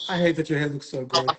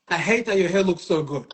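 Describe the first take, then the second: First: It is said in a relaxed, easygoing tone. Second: It is said in a hard, aggressive tone. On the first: The disagreement comes across as friendly and acceptable. The speaker calls it right. "That's like more palatable" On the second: The disagreement comes across as hostile. The speaker calls it wrong. "that's different"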